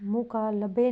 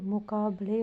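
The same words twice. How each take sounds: First: मुकालबे with l before b, mu-kaa-la-be; wrong form. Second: मुकाबले with b before l, mu-kaa-ba-le; the right मुकाबले, b then l; correct form. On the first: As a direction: say मुकालबे with the l and b swapped. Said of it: "मुकालबे नहीं". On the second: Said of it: "मुकाबले होगा". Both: Shown as a demonstration.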